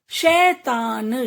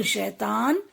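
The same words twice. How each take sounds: First: "शैतान" split slowly as शै-ता-न; teacher's drawn-out "शैतान"; sounding out. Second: Said in the usual way. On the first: Shown as a demonstration. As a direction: stretch each syllable of "शैतान". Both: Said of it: "कुछ ए के शब्द भी हैं".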